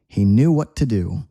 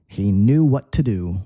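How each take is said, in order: No difference in how they are said.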